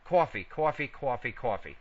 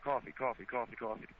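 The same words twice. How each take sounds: First: COFFEE four times as cwawfee. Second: COFFEE rattled off four times as cawfee; quick cawfee chain, no w; several times fast. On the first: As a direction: repeat coffee in a run, each with waw. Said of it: "even every time you still do it". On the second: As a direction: repeat coffee in a quick even run. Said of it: "Say it several times fast like that". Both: Shown as a demonstration.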